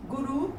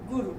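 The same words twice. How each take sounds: First: गुरु with a long rising final "oo"; mispronounced. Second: Said in the usual way. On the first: Shown as a demonstration. Teacher reads the error list, mispronounced गुरु as "guroo". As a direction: stretch the end of गुरु to "guroo". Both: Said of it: "मात्रा संबंधी अशुद्धियाँ दी गई".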